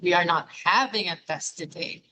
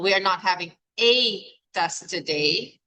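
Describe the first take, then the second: First: The word having carries the main stress. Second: The word a carries the main stress. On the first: Perhaps a different verb should replace having. "Is it not having?" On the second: There may be more than one test. "If the emphasis is on the a"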